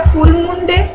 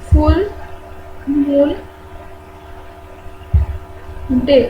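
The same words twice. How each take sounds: First: Said in the usual way. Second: फुल, मून, डे said one word at a time with long pauses between; slow dictation. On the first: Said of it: "इसे हम बोलते हैं क्या". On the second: Shown as a demonstration. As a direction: spell out फुल ... मून ... डे slowly so students can write. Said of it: "teacher dictates word by word". (धीरे-धीरे लिखवाते हुए: फुल ... मून ... डे)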